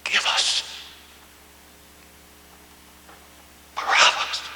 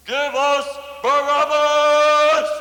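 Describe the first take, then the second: First: Hushed, breathy whisper of Give us Barabbas; whispered echo. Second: Much higher, louder, slow roaring cry; thunderous crowd yell. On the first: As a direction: let the words fall to a haunted whisper. Whispered echo of crowd's cry. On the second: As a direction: bellow it as the whole mob at once. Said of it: "yelled out in one loud, electrifying, thunderous voice". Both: Acted.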